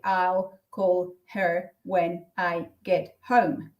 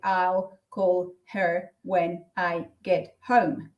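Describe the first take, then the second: First: Each word is said separately, one by one. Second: Each word is said separately, one by one.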